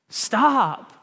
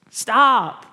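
First: A firm, raised stop, lightly voiced as God. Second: Much louder, higher second stop, a half-real yell. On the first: God stopping Todd, a firm raised call. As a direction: halt him with one firm word. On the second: Retold or imitated. God yelling at Todd to stop, loud. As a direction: shout it to cut through. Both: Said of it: "And God's just yelling".

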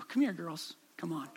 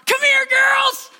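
First: Calm call. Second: Shout. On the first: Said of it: "in this kinda calm voice". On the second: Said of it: "And so I shout". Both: Retold or imitated.

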